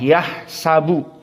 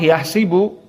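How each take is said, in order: First: The middle vowel is an open 'a' sound. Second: The middle vowel is a front 'i' sound. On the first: "dengan fathah" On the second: "dengan kasrah"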